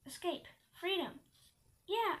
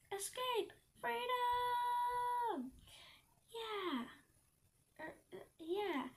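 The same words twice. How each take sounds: First: Brief, restrained exclamations; a short cheer, lightly voiced; yelled cheer. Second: High, drawn-out cry of freedom; triumphant yell. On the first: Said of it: "I yelled". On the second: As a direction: stretch it out like an escapee's cheer. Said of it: "I yelled, turning back". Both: A narrator's reading.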